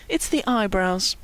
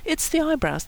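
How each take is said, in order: First: Slow, soft musing; quietly pondering; thoughtful. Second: Higher, soft insistence; lightly insistent, pitched up; explaining. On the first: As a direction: muse it aloud slowly. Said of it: "Brian said thoughtfully". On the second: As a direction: repeat it as a helpful explanation. Brian repeats over Kevin's objection. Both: A narrator's reading.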